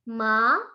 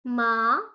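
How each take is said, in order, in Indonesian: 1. Diucapkan dengan nada kedua. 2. Diucapkan dengan nada kedua.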